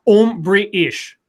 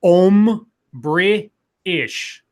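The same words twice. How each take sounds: First: "Um, British" joined into one phrase; run together. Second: "Um, British" broken into separate pieces; slow, syllable by syllable. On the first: Host demonstrates the trick, "Um, British" run together. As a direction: say "Um, British" without gaps between the pieces. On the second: Host demonstrates the trick slowly, "Um, British" in pieces. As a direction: draw out "Um, British" with gaps between syllables. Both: Shown as a demonstration. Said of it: "And say it all really fast".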